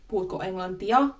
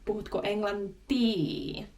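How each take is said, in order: First: The last word ends in the vowels 'i-a'. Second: The last word ends in a long 'i'.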